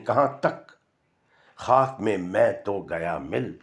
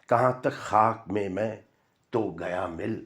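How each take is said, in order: First: There is a break after 'kahan tak'. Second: The line flows on without a break. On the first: How far? I have been mixed into the dust. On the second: I have been mixed into the dust so far.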